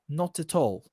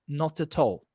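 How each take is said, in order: First: It has a British accent with clear t sounds. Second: The same.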